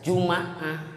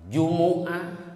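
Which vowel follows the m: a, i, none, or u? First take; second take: a; u. First: The m is followed by an a vowel. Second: The m is followed by an u vowel. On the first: "bisa fathah" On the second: "bisa domah"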